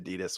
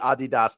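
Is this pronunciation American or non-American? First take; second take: American; non-American. First: It is pronounced the American way. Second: It is pronounced the non-American way. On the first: This is the Americanized pronunciation. "we've all Americanized it to Adidas" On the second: This may be the original pronunciation. "I think it might actually be Adidas"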